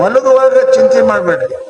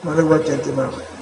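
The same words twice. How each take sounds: First: Higher, raised-voice exhortation; emphatic proclamation. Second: Quiet repeat. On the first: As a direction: proclaim the rule to the congregation, pitch lifted. Second rule proclaimed, then repeated softly. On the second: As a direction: drop the volume and let the advice settle. Same rule repeated softly after proclamation. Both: Real, not acted.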